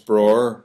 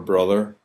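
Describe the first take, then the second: First: The middle 'th' sound is dropped entirely. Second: The middle 'th' sound is clearly pronounced. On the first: "It's bror" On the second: "we don't say other or brother"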